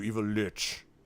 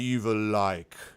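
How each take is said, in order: First: The last word rhymes with witch. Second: The last word does not rhyme with witch. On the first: "which is like witch" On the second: "I am an evil like"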